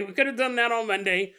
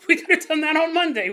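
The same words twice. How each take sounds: First: Said in the usual way. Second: High, loud, laughing through the line. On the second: Retold or imitated. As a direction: crack up as you say "Monday". Dad realizing, laughing.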